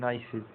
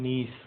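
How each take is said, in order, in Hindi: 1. यह दो अक्षरों में बोला जाता है: nai-sez। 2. यह एक अक्षर में बोला जाता है: nees। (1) "हम क्या पढ़ते हैं नाइसेज" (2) "एक्चुअल जो उच्चारण"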